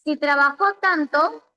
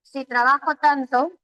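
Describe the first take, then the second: First: "trabajó" stressed on the last syllable, tra-ba-JÓ; stress on final JÓ. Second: "trabajo" stressed on the middle syllable, tra-BA-jo. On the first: Teacher moves the accent to test sense, stressing tra-ba-JÓ. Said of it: "si le pongo la tilde en la O". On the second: Teacher reads the written sentence, stressing tra-BA-jo. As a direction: read it with the weight on BA in "trabajo". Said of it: "Aquí dice trabajo". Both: Shown as a demonstration.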